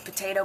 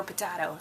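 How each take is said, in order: First: Potato with "tay" in the middle; usual potato. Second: Potato with "tah" in the middle; alternative potato. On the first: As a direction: say potato as "puh-TAY-toe". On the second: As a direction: say potato as "puh-TAH-toe". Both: Shown as a demonstration. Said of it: "tomato or potato".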